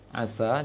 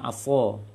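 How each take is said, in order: First: The word ends with a light 'a' vowel. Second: The word ends with a dark 'o'-like vowel. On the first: It means 'may it be'. The speaker calls it right. "seharusnya asa sin" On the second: It means a knife. The speaker calls it wrong. "dibacanya aso"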